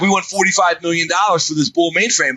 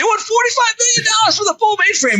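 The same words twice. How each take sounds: First: Said in the usual way. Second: High, screaming outrage at the price; mock-screamed disbelief at the price; retold scream. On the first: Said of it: "And they're like". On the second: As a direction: shriek it in disbelief like the whole room is yelling. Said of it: "He's literally screaming".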